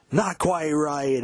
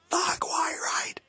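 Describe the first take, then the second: First: Higher, slow, louder mock cry; a drawn-out, milder stage cry; live-take cry. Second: Very high, slow, strangled whispered wail; studio-take cry. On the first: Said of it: "Live version from seventy-nine". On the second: Retold or imitated. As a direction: squeal it like a man losing it. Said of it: "Studio version, he does".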